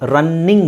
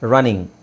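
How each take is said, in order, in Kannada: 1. ಮಧ್ಯದ 'n' ಶಬ್ದ ಎರಡು ಬಾರಿ ಬರುತ್ತದೆ, ಉದ್ದವಾಗಿ ಹಿಡಿಯಲಾಗುತ್ತದೆ. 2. ಮಧ್ಯದ 'n' ಶಬ್ದ ಒಂದೇ, ಸಣ್ಣದಾಗಿ ಇರುತ್ತದೆ.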